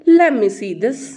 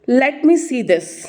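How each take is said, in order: First: 'Let me' is run together as 'lemme'. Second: 'Let me' is said fully as two words.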